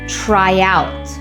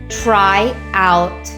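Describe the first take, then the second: First: A slight y sound links the two words. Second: A glottal stop separates the two words. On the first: "let's link them with a Y" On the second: "I had to separate those words with a glottal stop"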